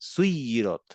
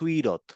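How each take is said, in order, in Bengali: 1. মাঝের 'y' ধ্বনিটি টেনে উচ্চারিত হয় এবং দ্বিত্ব। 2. মাঝের 'y' ধ্বনিটি ছোট এবং একক। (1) "আসলে তো সুইরত না, সুইরত" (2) "প্রথমে যে সকুন সেটা যদি আমরা উচ্চারণই না করি, তাহলে হয়ে যাবে"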